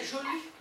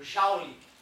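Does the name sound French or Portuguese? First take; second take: French; Portuguese. First: The name is said with rounded French lips. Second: The name is said with a Portuguese-style sound. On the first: The speaker calls it right. "é biquinho do francês" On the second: The speaker calls it wrong. "Se tu fala isso com um francês, ele vai rir da tua cara"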